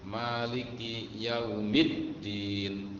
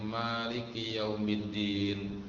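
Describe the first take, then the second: First: The d sound is held and doubled. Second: The d sound is short and single. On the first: The speaker calls it right. "kan ada tasdidnya tuh ya" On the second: The speaker calls it wrong. "terus tasdidnya kurang"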